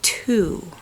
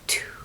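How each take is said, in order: First: The word is spoken in a normal voice. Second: The word is whispered without voice. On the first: "gently say two. Say with me" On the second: "Now whisper it"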